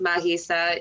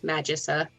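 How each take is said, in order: First: The word is given a Greek pronunciation. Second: The word is given an English-style pronunciation. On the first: This stays true to the word's roots. "In Greek, it's as it is pronounced Magisa" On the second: This is how most readers will read it. "I imagine most readers are going to see the title and think Magissa"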